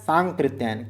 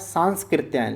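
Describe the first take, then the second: First: No s sound comes before the k. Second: An s sound comes before the k. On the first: This is how the name is said. The speaker calls it right. "लेकिन होगा क्या सांकृत्यायन" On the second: This is how the name is written. The speaker calls it wrong. "यहां पर लिखा है सांस्कृत्यायन"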